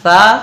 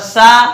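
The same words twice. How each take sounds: First: The consonant is a soft th sound. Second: The consonant is a whistling s sound. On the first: The speaker calls it right. "तब हमारा सा सी सू अदा होता है" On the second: The speaker calls it wrong. "ये तो सीन की आवाज आ रही है"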